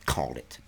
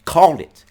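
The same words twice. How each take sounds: First: Gloating. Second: Said in the usual way. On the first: Real, not acted. Gloating repetition varied.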